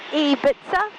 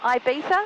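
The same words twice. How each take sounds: First: The first vowel sounds like 'ee'. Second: The first vowel sounds like 'eye'. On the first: The speaker calls it right. "E for e, for I, so it's E Kia, like it's Ibiza" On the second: The speaker calls it wrong. "not Ibiza"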